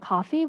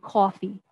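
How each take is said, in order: First: The vowel is said with little lip rounding. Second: The vowel is said with strong lip rounding. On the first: "which is how I would say" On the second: "some New Yorkers might say"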